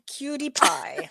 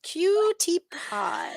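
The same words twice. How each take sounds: First: Slow, higher-pitched pet talk; cooing at dog. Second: Exaggerated pet cooing. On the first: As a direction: coo softly to a beloved dog, drawn out. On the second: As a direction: stretch each syllable to dote on the dog. Repeats the coo, more drawn out. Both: Real, not acted.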